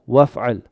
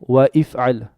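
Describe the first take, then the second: First: The words run together with no glottal stop. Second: A glottal stop separates 'wa' from 'if'al'. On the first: The speaker calls it right. "I say waf'al" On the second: The speaker calls it wrong. "I don't say وافعل"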